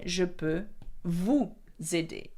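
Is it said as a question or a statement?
statement. It is said as a plain statement. It states that the speaker can help. "So you would say"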